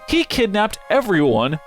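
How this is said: The voice falls at the end like a statement.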